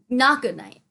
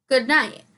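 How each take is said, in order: First: Not stressed, then good night. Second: Said in the usual way. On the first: Real, not acted. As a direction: hit Not to correct yourself.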